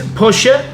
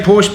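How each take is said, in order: First: The word is said with two syllables. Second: The word is said with one syllable. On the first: Listeners may think the speaker is pretentious. "the correct pronunciation is Porsche" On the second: It sounds ordinary to local listeners. "I'm still going to say Porsche"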